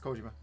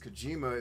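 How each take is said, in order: First: All syllables are said evenly, without stress. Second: One syllable is stressed, English style. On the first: The speaker calls it right. "there's no emphasis on syllables the way we do it, so it's just Kojima" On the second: The speaker calls it wrong. "the you know anglicized pronunciation"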